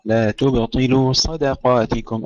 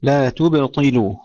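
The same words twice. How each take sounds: First: تبطلوا with an echoing light ب then a heavy ط; تبطلوا: bounce the ب lightly, then thicken the ط; bouncing ba, heavy ta. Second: تبطلوا with a full heavy ط; تبطلوا: make the ط thick and heavy. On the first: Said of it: "قلقلة الباء مع ترقيقها ثم تفخيم الطاء". (قلقلة الباء وتفخيم الطاء في تبطلوا) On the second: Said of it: "تفخيم الطاء". (تفخيم الطاء في تبطلوا) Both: Shown as a demonstration.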